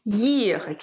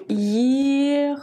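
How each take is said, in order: First: Ехать at normal length, first syllable stressed. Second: Ехать stretched over long, level syllables; sounding out slowly. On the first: Teacher showing where Ехать is accented, first-syllable stress. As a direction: lean on the opening е of Ехать. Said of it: "L'accent tonique sur le е au début". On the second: Teacher writing the verb first, drawn-out syllables. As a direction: draw out each syllable as you write. Je l'écris tout d'abord. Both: Shown as a demonstration.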